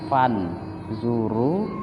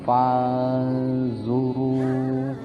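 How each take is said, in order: First: The n is pronounced clearly before z. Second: The n is hidden and nasalized into z. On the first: "Aslinya fan zuru" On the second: "tetapi menjadi falzuru, bersiap-siap ke huruf zo. Samar dan mendengung caranya"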